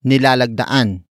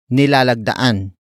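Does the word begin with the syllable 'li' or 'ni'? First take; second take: ni; ni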